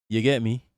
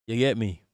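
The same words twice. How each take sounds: The two takes are said the same way.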